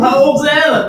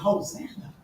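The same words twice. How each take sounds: First: It sounds like a casual, hyped-up cheer. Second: It sounds like a desperate, pleading cry. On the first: It is a casual cheer of celebration. The speaker calls it wrong. "No, they wasn't saying it like that" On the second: It is an urgent plea for rescue. The speaker calls it right. "They were saying"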